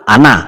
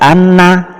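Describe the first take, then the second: First: The n sound is not held at all. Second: The n sound is held only briefly. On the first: "jangan langsung ana, salah" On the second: "atau sedikit saja anna, salah"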